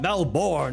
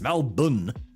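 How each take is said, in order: First: The second syllable is full, like born. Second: The second syllable is reduced to a quick bn. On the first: The speaker calls it wrong. "Some people with really thick American accents will say it like that" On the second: The speaker calls it right. "It's like M A M E L B N"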